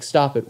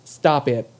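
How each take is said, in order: First: Said in the usual way. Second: Imitating a nervous squeak on "stop it"; "stop it" pitched up as if nerves took over; nervous, higher-pitched. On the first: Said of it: "to me it sounded like". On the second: Host mimics his failed order to a skinhead, nervously higher-pitched "stop it". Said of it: "did I sound higher pitched".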